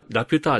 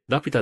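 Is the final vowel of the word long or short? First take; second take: long; short. First: The final vowel is held long. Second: The final vowel is kept short. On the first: The speaker calls it wrong. "ラピュターじゃなくて" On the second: The speaker calls it right. "伸ばさないんですって"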